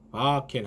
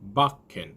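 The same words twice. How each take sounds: First: The k sound is short and single. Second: The k sound is held and doubled. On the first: The speaker calls it wrong. "바켄 하지 마시고" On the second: The speaker calls it right. "기억을 붙여서 발음하시면 됩니다"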